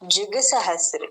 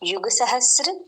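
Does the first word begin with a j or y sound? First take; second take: j; y. First: The first word begins with a j sound. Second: The first word begins with a y sound. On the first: "జుగ్ అని కూడా కొన్ని చోట్ల ఉంటుంది" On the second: "యుగ అన్నప్పుడు"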